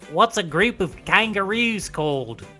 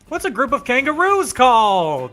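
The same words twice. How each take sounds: First: It is said in an Australian accent. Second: It is said in the speaker's normal accent.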